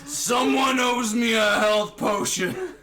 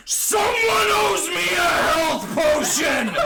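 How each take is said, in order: First: Loud, drawn-out yell, short of a full scream; slow, raised-voice demand carrying across a battlefield; reined-in scream. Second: Full-out high, drawn-out battle scream; deafening slow roar for help; top-of-lungs scream. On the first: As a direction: call it out high and slow, holding a little back. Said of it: "don't scream into the mic". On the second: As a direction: scream it at the top of your lungs, stretching every word. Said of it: "scream out the top of my lungs". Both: Acted.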